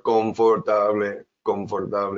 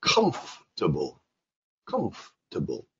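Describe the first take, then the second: First: CONFORTABLE as four even syllables, con-for-TA-bleh; Spanish pronunciation. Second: COMFORTABLE squeezed to CUMF-tuh-bul; English pronunciation. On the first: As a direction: say "confortable" evenly, with Spanish vowels. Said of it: "in Spanish". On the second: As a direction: stress the first syllable of "comfortable" and swallow the "or". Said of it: "In English, comfortable". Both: Shown as a demonstration.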